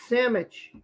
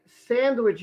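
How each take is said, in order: First: "sandwich" said as "sammich", N and D dropped; mispronounced sandwich. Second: Said in the usual way. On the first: Retold or imitated. Wife quoting his mistake back to him, "sandwich" slurred to "sammich". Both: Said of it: "you don't say it correctly".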